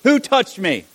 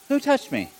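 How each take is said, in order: First: It is said loudly. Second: It is said quietly.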